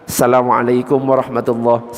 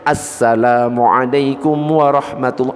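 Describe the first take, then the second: First: The greeting starts without the 'as' sound. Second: The greeting starts with the 'as' sound. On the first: The speaker calls it wrong. "itu tidak sah" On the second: The speaker calls it right. "Yang benar harus ada alif lamnya"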